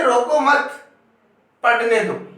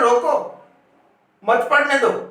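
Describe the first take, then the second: First: The pause comes after the second word, मत. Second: The pause comes after the first word, रोको.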